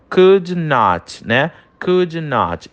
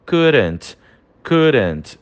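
First: "could not" said slowly with "could" stressed; slow model of could not. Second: "couldn't" said as one contracted word; contracted form. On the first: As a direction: spell out the two words slowly. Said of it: "E aí fica". ("could not" devagar, "could" acentuado) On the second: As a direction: run it together into "couldn't". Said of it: "a forma contraída é". ("couldn't" contraído numa só palavra) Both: Shown as a demonstration.

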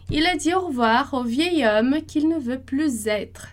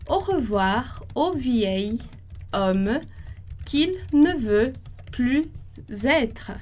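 First: Said in the usual way. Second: Slowly, word by word, with pauses; slow dictation. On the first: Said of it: "sentence repeated at normal pace". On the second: Shown as a demonstration. Teacher dictating the sentence slowly, pausing between words. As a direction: spell it out for the class slowly. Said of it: "slow dictation of the sentence".

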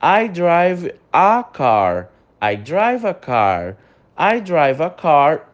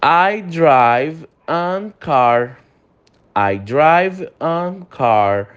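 First: Very slow drill with "a car"; slow correct example. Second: Very slow drill of "an car"; slow wrong example. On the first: Teacher modelling the correct sentence slowly. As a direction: read the corrected line slowly. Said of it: "o correto é a". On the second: Teacher reading the wrong sentence slowly for students. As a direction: read the mistake very slowly. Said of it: "Tá errado também". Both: Shown as a demonstration.

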